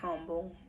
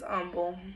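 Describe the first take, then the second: First: The name is said just as it is spelled. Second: The name is said differently from its spelling. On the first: The speaker calls it wrong. "It's not humble, even though it's spelled like humble" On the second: The speaker calls it right. "yes, it's Humble"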